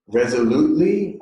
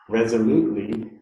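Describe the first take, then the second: First: It is said loudly. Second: It is said at normal volume. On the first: "first repeat aloud after me" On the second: "And now in a normal voice"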